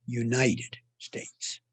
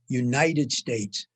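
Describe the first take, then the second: First: Slow "United States" with the weight on "United"; stress on United. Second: "United" slow and weighted, "States" falls away; stress on United. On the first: Lecturer repeating Washington's phrasing, stress on United. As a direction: linger on "United", softly let "States" fall. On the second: Lecturer showing Washington's emphasis, stress on United. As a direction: lean hard on "United", let "States" drop. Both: Shown as a demonstration. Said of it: "was always on the first word".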